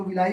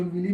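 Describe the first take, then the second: First: विलाई ending in a long "eye-ee" glide, vi-LAA-ee; pronunciation variant विलाई. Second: विली in two syllables, vi-lee; pronunciation variant विली. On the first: Teacher showing students how some people say it, विलाई with "laa-ee" ending. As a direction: say विलाई with an open "laa" before the final "ee". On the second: Teacher showing students the other pronunciation, विली ending in "lee". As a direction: say विली with a plain "ee" straight after the l. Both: Shown as a demonstration. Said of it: "pronunciation का फ़र्क है सिर्फ".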